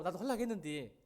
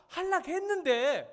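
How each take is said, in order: First: Said in the usual way. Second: 하려고 stretched slow, much higher and louder; 하려고 drawn out like a complaining kid; whiny protest. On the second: Retold or imitated. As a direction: drag out 하려고 in a high wail. Child stretching the word in protest.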